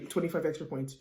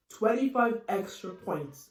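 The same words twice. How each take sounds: First: Said in the usual way. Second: Twenty-five extra points, slow and spaced out; slow emphasis. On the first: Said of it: "Twenty-five extra points, okay?". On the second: Real, not acted. Stressing the bonus points to viewers, slow emphasis.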